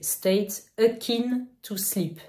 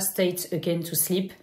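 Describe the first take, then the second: First: The phrase is pronounced carefully and clearly. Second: The phrase is pronounced loosely and unclearly. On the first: The speaker calls it right. "c'est State Akin to Sleep" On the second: The speaker calls it wrong. "Je l'ai mal prononcé"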